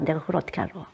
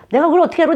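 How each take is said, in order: First: Softer, shrugging mumble; low-key dismissive reply; offhand brush-off. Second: High, loud, crude retort; mother bluntly refusing to help her child, crude and loud; rude brush-off. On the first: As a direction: brush the child off quietly. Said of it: "저는 근데 이렇게 했어요". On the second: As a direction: snap it back like a rude mother. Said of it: "아주 무식하게 그렇게". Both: Retold or imitated.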